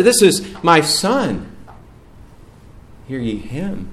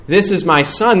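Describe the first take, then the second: First: A hint of a divine pronouncement, settling down; voice of God. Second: A touch higher and louder, with a rising end; a hint of a booming divine proclamation; preacher lightly voicing God the Father. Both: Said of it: "That's the heavenly Father".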